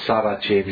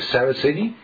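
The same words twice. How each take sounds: First: The name is said with an Italian pronunciation. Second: The name is said with an English pronunciation. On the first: "per italiani è Saraceni" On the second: "Per inglese è Saraceni?"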